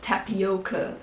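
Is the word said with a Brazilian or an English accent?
English. It is said with an English accent.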